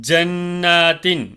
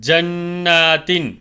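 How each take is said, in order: Both takes have the same delivery.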